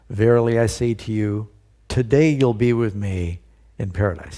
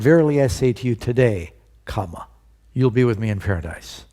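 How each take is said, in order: First: The pause comes before the word today. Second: The pause comes after the word today.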